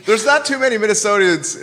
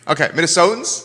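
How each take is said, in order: First: Minnesotians with an extra i sound, min-eh-SO-tee-ans; mispronounced word. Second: Minnesotans said min-eh-SO-tans, no extra i; careful, corrected Minnesotans with a questioning rise; corrected pronunciation. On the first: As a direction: says Minnesotians, adding an ee before the ending. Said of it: "Am I saying it right?". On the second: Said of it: "You can say Minnesotans". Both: Shown as a demonstration.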